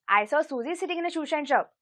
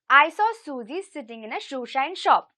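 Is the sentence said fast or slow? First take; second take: fast; slow. First: The sentence is said at a faster pace. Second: The sentence is said at a slower pace.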